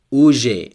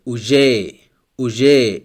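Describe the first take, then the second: First: Уже with stress on the first syllable, У-же. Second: Уже with stress on the last syllable, у-ЖЕ; stress on the end. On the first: Teacher demonstrating уже stressed on the first U. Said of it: "Here we have the stress on the first U". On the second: Teacher demonstrating уже stressed at the end. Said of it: "Here the stress is on A at the end". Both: Shown as a demonstration.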